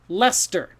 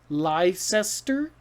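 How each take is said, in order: First: The name is said the short, usual way. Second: The name is sounded out from its spelling. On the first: The speaker calls it right. "Leicester. So Worcester and Leicester. ... they actually rhyme" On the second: The speaker calls it wrong. "Is is that Leicester? No"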